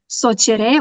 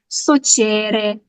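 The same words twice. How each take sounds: First: The stress falls on the last syllable. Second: The stress falls before the last syllable. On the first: This is how it is said in Eastern Serbia. "also with the stress uh, at the last syllable" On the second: This is how it is said where the speaker lives. "They say it socere"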